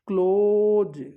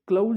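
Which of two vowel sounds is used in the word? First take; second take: accepted vowel; rejected vowel. First: The word is said with the accepted vowel sound. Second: The word is said with the rejected vowel sound. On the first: The speaker calls it right. "क्लोज ये इसका phonetic था" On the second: The speaker calls it wrong. "क्लोज नहीं है"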